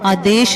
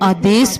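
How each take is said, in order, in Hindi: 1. शब्द एक sh ध्वनि पर खत्म होता है। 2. शब्द एक सादी s ध्वनि पर खत्म होता है। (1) "आदेश नहीं पढ़ना" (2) "सस्सा पढ़ना है"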